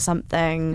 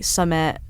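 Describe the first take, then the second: First: The word is said in a full standard form. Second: The word is shortened to a local 'summat'.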